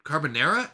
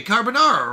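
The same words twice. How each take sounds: First: "Carbonara" with NAIR in the third syllable, rising; doubtful mispronunciation. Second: "carbonara" with NAR in the third syllable; usual pronunciation. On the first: Streamer testing a doubted "Carbonara" with a NAIR sound, unsure pronunciation. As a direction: say "Carbonara" as car-buh-NAIR-uh, questioning. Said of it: "I don't think it's Nara". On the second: Streamer settling on "carbonara" with an open NAR, confident pronunciation. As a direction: say "carbonara" as car-buh-NAR-uh, falling. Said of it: "that's what I was saying". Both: Shown as a demonstration.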